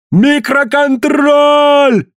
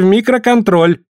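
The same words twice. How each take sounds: First: Very high, long drawn-out yell; desperate high-pitched holler. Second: Said in the usual way. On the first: A narrator's reading. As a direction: yell it out, stretching the last syllable. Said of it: "заорал Коллинз".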